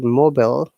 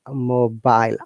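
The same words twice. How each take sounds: First: The last syllable has a short, reduced vowel. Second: The last syllable has a long 'eye' vowel. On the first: "American says it mobile, where I is the short sound" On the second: "for the British uh, pronunciation it is mobile, I sound after B"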